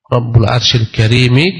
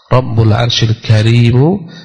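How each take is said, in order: First: The last word ends with an 'i' vowel. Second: The last word ends with a 'u' vowel. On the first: The throne is the noble one. "kalau dibaca dengan kasrah" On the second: The Lord is the noble one. "kalau dibaca dengan rafa'"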